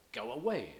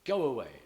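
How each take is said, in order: First: Away stressed on its second syllable, after a lighter go; "go away" leaning into away. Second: "Go away" with all the weight on Go; stress on Go. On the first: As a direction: let the weight land on away. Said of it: "might or might not be stressed". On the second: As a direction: Go punched high and loud, away falling off. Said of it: "according to the intentions of the speaker". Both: Shown as a demonstration.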